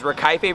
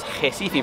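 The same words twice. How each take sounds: First: The first sound is an English R. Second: The first sound is an H sound. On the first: The speaker calls it wrong. "I was Recife" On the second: The speaker calls it right. "which I learned later was Recife"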